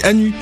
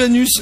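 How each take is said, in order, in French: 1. Le mot se termine sans son s. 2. Le mot se termine par un son s. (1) "je dis anu" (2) "je dis plus anus"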